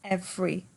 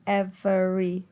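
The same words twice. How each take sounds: First: The word is said with two syllables. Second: The word is said with three syllables. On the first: The speaker calls it right. "notice that every is two" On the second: The speaker calls it wrong. "you could perhaps pronounce it with three"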